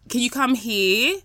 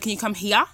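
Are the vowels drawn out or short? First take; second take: drawn out; short. First: Some vowels are stretched out long. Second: The vowels are kept short. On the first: It sounds English to Australian listeners. "I elongate certain words that Australians wouldn't. So I might say" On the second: It sounds Australian. "Instead of"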